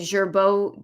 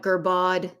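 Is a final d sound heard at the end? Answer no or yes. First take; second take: no; yes. First: The word ends without a final d sound. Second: The word ends with a final d sound.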